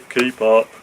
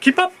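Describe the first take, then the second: First: It is said flatly, without excitement. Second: It is said in an excited, lively way.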